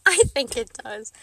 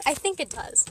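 First: I think it does said through a laugh. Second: Said in the usual way. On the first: Real, not acted. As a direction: laugh as you say it back to yourself. Repeats answer, second time laughing.

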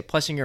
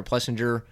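First: "Plessinger" with a hard G, as in singer; hard-G pronunciation. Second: "Plessinger" with a soft G, "Plessin-jer"; soft-G pronunciation. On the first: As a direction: say "Plessinger" without any J sound. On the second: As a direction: put a J sound in "Plessinger". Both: Shown as a demonstration. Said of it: "it's like a fifty-fifty".

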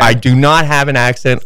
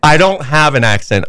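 First: "not" hit loud and separate; stress on NOT. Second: Insisting, loud denial; "don't" pushed hard and louder; stress on don't. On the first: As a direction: spell out "do not" with weight on "not". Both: Real, not acted. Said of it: "She's talking about your accent".

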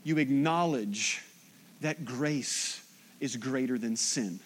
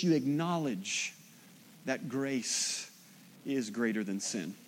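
First: Slow emphatic phrases, softer; repeated with pauses. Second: Each phrase set apart, dropping softer; slow emphatic pauses. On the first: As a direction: lay it down again for an amen. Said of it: "I'll say it again". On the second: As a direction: give every word room to land. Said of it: "that was a good part for an amen". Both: Shown as a demonstration.

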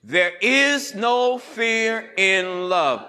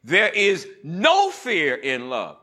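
First: Said in the usual way. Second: Slow, with "no" punched; stress on no. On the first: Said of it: "I want us to say that together". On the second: Shown as a demonstration. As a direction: hit the word "no" and let it ring. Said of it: "emphasize it like this, but let me do it first".

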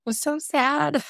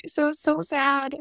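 First: Higher, voice catching on sad. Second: Slow, high, near tears on so, so sad; tearful repeat. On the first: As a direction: let the sadness rise into the words. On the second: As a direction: draw it out as if about to cry. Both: Real, not acted.

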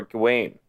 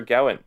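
First: Gawain stressed on the end, rhyming with "wane"; Gawain as guh-WAYN. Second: Gawain stressed up front, first syllable like "gow". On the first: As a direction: say Gawain as guh-WAYN, with a reduced first syllable. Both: Shown as a demonstration. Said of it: "how would you pronounce that".

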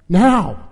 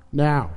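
First: Higher, urgent exclamation; impatient demand. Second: Said in the usual way. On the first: Acted. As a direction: demand it at once. Lun Kuo demands the answer. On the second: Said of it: "said Deep Thought".

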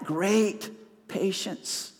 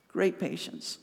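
First: Each word of Great patience drawn out slowly and weighted; slow emphasis. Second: Great patience repeated much softer, almost to himself; soft echo. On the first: Preacher presses the congregation with Great patience, slow and weighty. Preacher repeats key phrase. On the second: Preacher quietly echoes Great patience to let it sink in, softly. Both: Acted.

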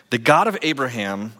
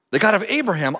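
First: Said in the usual way. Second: GOD lifted high and loud; proclaimed loudly. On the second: Shown as a demonstration. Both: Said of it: "same verse read twice".

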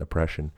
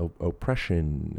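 First: Said in the usual way. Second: "oppression" opened with a long, stressed "oh"; extra emphasis on the O. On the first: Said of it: "I like it for some reason". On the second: Real, not acted. Podcast host catching his own quirky pronunciation, stretched O in "oppression". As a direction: lean on the O in "oppression", oh-ppression. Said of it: "I put an extra emphasis on the O".

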